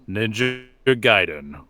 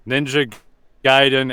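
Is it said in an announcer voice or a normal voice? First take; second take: announcer voice; normal voice. First: It is said in a put-on announcer voice. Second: It is read out in a normal voice. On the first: "you want me to do the voice? Okay" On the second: "I thought you wanted me to read that out loud"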